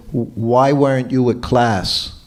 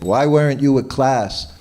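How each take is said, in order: First: A slow, louder scolding demand; retold mild yell. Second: Repeated mild yell. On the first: Teacher scolding his late servant, mild mock yell. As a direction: mimic the guru's stern rebuke, slowed. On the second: Retold or imitated. Guru repeating his rebuke to servant, mild mock yell. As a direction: hammer the question as a mock scolding. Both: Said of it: "Prabhupada yelled at him".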